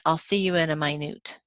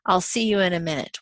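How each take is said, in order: First: Minute is said as the word for very small. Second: Minute is said as the word for sixty seconds. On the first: It means really small. "We don't think that they mean" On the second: It means sixty seconds. "we assume they mean sixty seconds"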